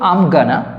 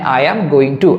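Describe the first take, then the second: First: The words are shortened and run together. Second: Every word is said fully and separately. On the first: It is informal spoken English. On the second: It is the full, formal form.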